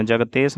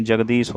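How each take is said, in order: First: जगतेश with "tesh", not "deesh"; wrong pronunciation. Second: Said in the usual way. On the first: Shown as a demonstration. Teacher shows students the error, जगतेश with te sound. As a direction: say जगतेश with t and long e. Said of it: "नहीं होता है". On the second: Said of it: "होता है".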